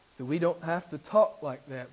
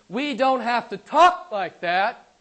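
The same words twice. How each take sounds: First: Said in the usual way. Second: "we don't have to talk like that" louder and slow, "talk" rising; emphatic. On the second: Real, not acted. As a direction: hammer "talk" slowly and loudly. Preacher stresses point to congregation.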